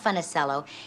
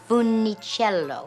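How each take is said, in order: First: The name is said with an American pronunciation. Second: The name is said with an Italian pronunciation. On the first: The speaker calls it wrong. "you are mispronouncing it" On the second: The speaker calls it right. "It's a beautiful Italian name"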